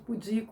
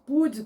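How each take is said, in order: First: The stress is on the second syllable, di. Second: The stress is on the first syllable, pu. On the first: The speaker calls it right. "ao invés de pudico, mas não é" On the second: The speaker calls it wrong. "falar púdico"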